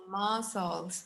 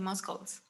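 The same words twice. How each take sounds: First: The c is silent, no k sound. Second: The c is pronounced as a k sound. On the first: The speaker calls it right. "The, the C, it's mute. So we're gonna say muscles" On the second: The speaker calls it wrong. "We won't say muscles"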